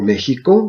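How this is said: The name is said with a Spanish pronunciation.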